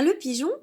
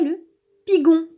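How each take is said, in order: First: The g is soft, like the s in measure. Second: The g is hard, like the g in go. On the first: The speaker calls it right. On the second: The speaker calls it wrong.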